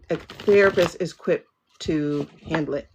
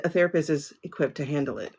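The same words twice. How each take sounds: First: "A therapist is equipped to handle it" slowed, with "therapist" leaned on; slow emphatic repeat. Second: Said in the usual way. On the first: Shown as a demonstration. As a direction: drive the point home, word by word.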